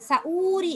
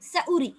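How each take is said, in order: First: The middle vowel is drawn out long. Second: The middle vowel is kept short. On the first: The speaker calls it wrong. "சஊரி அல்ல" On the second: The speaker calls it right. "நீட்டவானம்"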